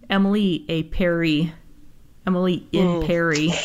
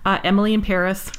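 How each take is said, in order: First: It is said with a put-on French accent. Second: It is said with a plain English accent. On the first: "Let me put my grade eight French hat on" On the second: "I don't think you pronounced that correctly"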